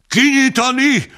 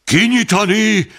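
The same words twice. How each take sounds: First: The same order shouted again, pitched higher still; crowd shout, even higher. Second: A high shouted order from the crowd. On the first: The crowd repeats its demand to open the sack, higher shout. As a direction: push the second shout up further. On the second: The crowd yells at the president to open the sack, shouting. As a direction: bellow it open, a storm of voices. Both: A narrator's reading. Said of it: "Hangorkán".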